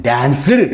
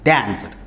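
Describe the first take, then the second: First: డాన్స్డ్ as dan-si-du, rising and louder at the end; wrong extra syllable. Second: డాన్స్డ్ as danst, falling, no added vowel; correct single syllable. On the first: Teacher showing what not to say, extra syllable. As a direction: stress an added vowel in the ending of డాన్స్డ్. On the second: Teacher correcting the wrong version, one syllable. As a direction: close డాన్స్డ్ straight on the consonants. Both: Shown as a demonstration. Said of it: "అని పలకకూడదు".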